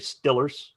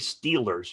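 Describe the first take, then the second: First: The first vowel is a short 'i' sound. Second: The first vowel is a long 'ee' sound. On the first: This is how locals from Pittsburgh say it. "you say Stillers" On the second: This is the general, non-local way to say it. "You don't say Steelers"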